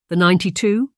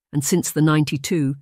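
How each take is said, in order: First: Ninety-two rising as a puzzled question; puzzled echo. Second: Said in the usual way. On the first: A narrator's reading. Charlotte echoes the boy's ninety-two, rising puzzled question.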